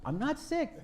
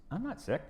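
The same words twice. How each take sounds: First: High, laughing "I'm not sick"; a mock-stubborn mother laughing as she says it; laughing mom. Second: Mom's voice. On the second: Retold or imitated. Mom's reply voiced in story.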